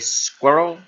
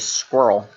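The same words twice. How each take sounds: First: It is said in a Scottish accent. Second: It is said in an American accent.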